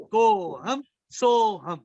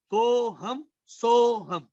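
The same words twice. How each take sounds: First: Drawn out slowly once more, syllables held; slow mantra repeat. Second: Drawn out slowly, each syllable held; slow mantra. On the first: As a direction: repeat it slowly, letting it sink in. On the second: Teacher intones the mantra. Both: Shown as a demonstration.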